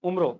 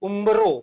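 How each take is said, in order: First: A plain m sound with no b. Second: A clear b sound follows the nasal. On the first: The speaker calls it wrong. "ઉમરો મ બોલીએ છે પણ actually બ આવે" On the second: The speaker calls it right. "ઊંટનો ઉ બકરીનો બ રમકડાનો ર"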